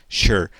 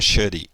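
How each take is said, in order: First: The word ends on the r with no vowel. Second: An extra vowel is sounded after the final r. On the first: The speaker calls it right. "o ezinho de sure, final E, não é pronunciado" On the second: The speaker calls it wrong. "não é should"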